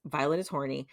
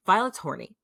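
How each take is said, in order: First: Said in the usual way. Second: Louder and higher, delighted to tell it; gleeful reveal. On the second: Real, not acted. Telling the co-host the juicy news, gleeful and loud. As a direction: announce the juicy bit to the co-host with glee.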